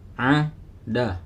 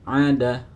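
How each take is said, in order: First: The syllables are read separately with a break. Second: The syllables are read quickly as one word. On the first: "boleh sepotong-potong. Misalkan ini dibaca a da" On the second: "lebih baiknya dibaca agak cepat"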